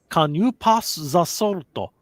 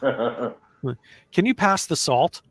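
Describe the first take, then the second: First: It is said in a Japanese accent. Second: It is said in a plain American accent.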